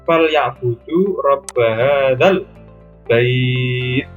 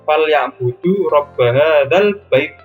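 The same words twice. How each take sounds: First: The final vowel sound is held long. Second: The final vowel sound is cut short. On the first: The speaker calls it right. "tapi dipanjangkan" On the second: The speaker calls it wrong. "bukan ... Bukan seperti itu"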